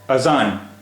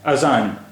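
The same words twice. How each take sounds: First: The middle consonant is a buzzing z sound. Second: The middle consonant is a buzzing z sound.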